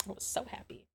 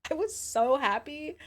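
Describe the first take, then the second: First: Soft breathless whisper; hushed, dreamy whisper; whispered happy. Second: High, slow gushing; gleeful high sing-song; squealed happy. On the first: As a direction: whisper it like a secret delight. Repeating happy line, whispered. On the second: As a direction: stretch it out high and giddy. Repeating happy line, squealed. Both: Real, not acted.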